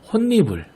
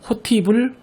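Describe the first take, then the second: First: The middle consonant is a doubled n sound. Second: The middle consonant is a t sound. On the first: The speaker calls it right. "반드시 함께 적용해서" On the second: The speaker calls it wrong. "호티불, 호치불이라고 발음하면 안 되고"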